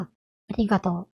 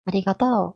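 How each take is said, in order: First: ありがとう with the accent peak on り; standard accent ありがとう. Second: ありがとう rising at the end; Kansai accent ありがとう. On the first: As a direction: say ありがとう standard style, strongest on り, then falling. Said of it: "りに一番強い音が来るんだけど". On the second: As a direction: say ありがとう Kansai style, pitch going up on とう. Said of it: "最後に上がるようになってるのね". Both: Shown as a demonstration.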